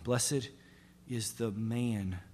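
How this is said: The word 'man' is stressed.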